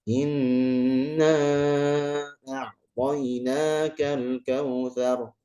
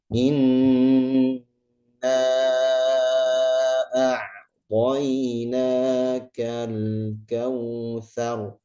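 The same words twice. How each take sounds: First: It is recited at a moderate speed. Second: It is recited very slowly and deliberately. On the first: It suits leading prayer or group recitation. "Kalau tadwir berarti pertengahan" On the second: It suits study or devout, contemplative recitation. "Kalau kita baca tahqiq kan pelan, pelan sekali ya"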